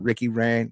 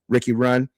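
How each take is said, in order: First: The surname sounds like the word 'ran'. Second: The surname sounds like the word 'run'. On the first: The speaker calls it right. "That's how you pronounce it" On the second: The speaker calls it wrong. "I'm sorry"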